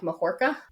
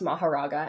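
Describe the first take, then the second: First: The name is said with three syllables, shortened. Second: The name is said with four full syllables. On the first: "the way that they pronounced it in Japanese was something more like Mahorka" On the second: "I've always heard it pronounced Maharaga"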